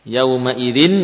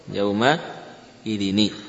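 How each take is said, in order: First: The word ends on a bare n sound. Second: The word ends with n plus an i vowel. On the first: "bunyi nun sukun" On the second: "Bunyi nun kasrah"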